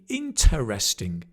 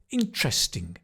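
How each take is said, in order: First: Every syllable of the word is pronounced. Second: A middle syllable is dropped, squeezing the word. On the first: "It should be interesting" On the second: "But he said"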